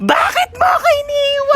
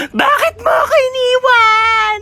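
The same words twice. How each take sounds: First: Even higher crying wail; mock wailing. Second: High, slow hammed-up sob; mock wailing. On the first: Mourner wails again at the coffin, higher mock sob. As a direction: push the fake sob further up. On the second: Mourner wails over the coffin, hammed-up sobbing. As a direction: wail it like a fake mourner.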